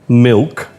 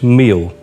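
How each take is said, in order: First: The word is said in standard English pronunciation. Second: The word is said with a Thai-style pronunciation. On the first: The speaker calls it right. "ask them to say something like um" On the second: The speaker calls it wrong. "and it's meal"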